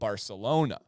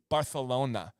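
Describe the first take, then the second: First: It is said with a plain American accent. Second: It is said in Spanish style, with a lisp.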